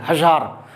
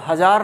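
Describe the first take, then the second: First: The middle consonant is a buzzing z sound. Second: The middle consonant is a plain j sound. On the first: The speaker calls it right. "मुंह में जरा अंदर से आवाज निकालोगे" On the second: The speaker calls it wrong. "आप हजार नहीं कहोगे"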